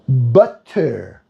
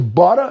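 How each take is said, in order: First: It is said in a careful, precise way. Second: It is said in a relaxed, casual way. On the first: This is how others say it. "Let me be professional. The way you guys" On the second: This is the speaker's own everyday way. "For me, it's how I say it"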